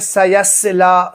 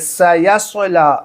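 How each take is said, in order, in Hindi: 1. दोनों s ध्वनियाँ सादी हैं। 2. दूसरी s ध्वनि भारी है। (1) "लोग क्या पढ़ते हैं?" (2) "पहले सीन है, स फिर स्वाद है"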